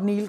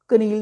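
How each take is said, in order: First: It begins with an n sound. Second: It begins with a k sound. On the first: The speaker calls it right. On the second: The speaker calls it wrong.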